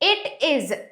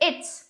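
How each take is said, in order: First: Two separate words are said in full. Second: The words are run together into one syllable.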